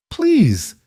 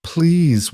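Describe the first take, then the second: First: High cracked plea, higher pitch; voice cracking. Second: Pleading, higher pitch; desperate plea. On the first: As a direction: voice breaks on the word. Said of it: "she finally whispered, and her voice cracked". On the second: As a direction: beg the stranger for help. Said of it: "her voice cracked on the word". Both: A narrator's reading.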